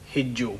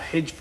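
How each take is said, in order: First: The word ends with a doubled j and oo. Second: The word ends with a short v sound. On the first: The speaker calls it wrong. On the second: The speaker calls it right.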